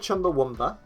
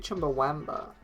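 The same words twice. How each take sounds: First: The second-to-last vowel is a reduced 'uh' sound. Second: The second-to-last vowel is a full 'ah' sound. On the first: This is the pronunciation commonly heard. "I've heard Chumbawamba" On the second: This follows the spelling with an A. "it's got an A in it. So it could be Chumbawamba"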